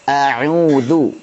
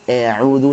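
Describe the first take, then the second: First: The first vowel is a plain, balanced a. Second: The first vowel is over-thinned toward e. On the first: The speaker calls it right. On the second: The speaker calls it wrong.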